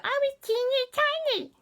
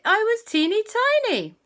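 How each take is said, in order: First: Put-on much higher squeaky "I was teeny tiny"; tinier squeak. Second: Put-on high, squeaky "teeny tiny"; little voice, first go. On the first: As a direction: shrink the voice right down. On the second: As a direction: squeak it small. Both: Shown as a demonstration. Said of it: "or rather".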